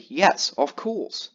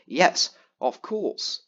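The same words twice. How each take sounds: First: Drawn-out, slow sarcastic yes; mock polite reply, said very slowly. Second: Drawn-out, slow sarcastic yes again; quoting the friend's edited reply, slow and mocking. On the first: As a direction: stretch it out as if mocking the edited reply. Mock edited reply in chat. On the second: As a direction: drag it out like reading a fake chat edit. Same edited reply quoted again.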